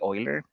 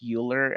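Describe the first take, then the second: First: The name is said the German way. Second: The name is said the common American way. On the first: The speaker calls it right. "So the correct way would be Euler" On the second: The speaker calls it wrong. "many people pronounce this Euler. I think it's very common in the U S"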